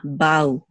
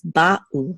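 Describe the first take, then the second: First: Ba'u glided into a single syllable; flowing together. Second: Ba'u broken by a short stop after ba; separated syllables. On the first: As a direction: let ba flow into u in ba'u without a gap. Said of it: "They should not flow together". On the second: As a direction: keep ba and u apart in ba'u. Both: Shown as a demonstration.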